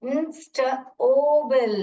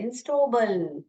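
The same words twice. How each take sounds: First: इंस्टेबल with a long open O in the middle; teacher sounding out a nonsense word. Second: Said in the usual way. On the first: Shown as a demonstration. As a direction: stretch the O in इंस्टेबल slowly. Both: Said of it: "ये नीचे ओ करके sound करे".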